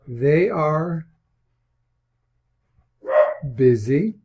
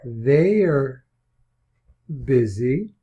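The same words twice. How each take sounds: First: They are is said as two full words. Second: They are is shortened into one syllable. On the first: "Standard English" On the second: "We can contract it"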